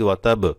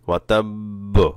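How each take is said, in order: First: The final consonant is cut short. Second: The final consonant is held a little longer. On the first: The doubled letter cannot be heard. The speaker calls it wrong. "এখন যদি ওয়াতাব এভাবে বলে ফেলেন তাহলে কিন্তু এখানে যে তাসদিদ আছে সেটা বোঝা যাবে না" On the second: The doubled letter can be heard. The speaker calls it right. "এভাবে একটু ধরে রাখতে হবে"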